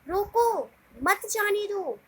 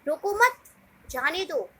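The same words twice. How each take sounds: First: The pause comes right after 'roko'. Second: The pause comes right after 'mat'.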